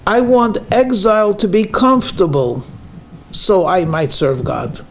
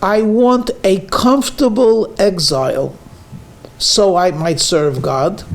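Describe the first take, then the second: First: "I want exile to be comfortable", falling on "so I might serve God"; stress on to be comfortable. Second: "I want a comfortable exile", lifting "so I might serve God"; stress on comfortable exile. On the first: Rabbi giving the second version for contrast. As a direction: lean on "to be comfortable". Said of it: "a second statement". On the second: Rabbi contrasting two statements to the congregation. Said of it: "here's a statement". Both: Shown as a demonstration.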